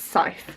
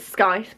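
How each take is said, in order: First: The word has its usual, not letter-by-letter, sound. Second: Every written letter of the word is sounded out. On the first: The speaker calls it right. "but it's pronounced Scythe" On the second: The speaker calls it wrong. "I pronounce it Scythe because I'm an idiot and I say things how they're written"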